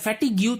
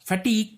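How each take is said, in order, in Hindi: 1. यह शब्द 'gyoo' ध्वनि पर समाप्त होता है। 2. यह शब्द सादा 'g' ध्वनि पर समाप्त होता है। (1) "फैटिग्यू तो नहीं कहा जाता" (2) "फटीग कहा जाएगा"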